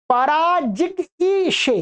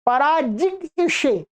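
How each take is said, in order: First: पराजिग ईशे said slowly with a separate ईशे; slow careful demo. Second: पराजिग ईशे drawn out, ending on a long ईशे; slow careful demo. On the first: Teacher showing students how to say पराजिग ईशे, slow and careful. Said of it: "इसका उच्चारण कैसे करेंगे". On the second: Teacher repeating पराजिग ईशे for the class, slow and clear. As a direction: say पराजिग ईशे slowly, holding the ईशे. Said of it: "ऐसा". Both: Shown as a demonstration.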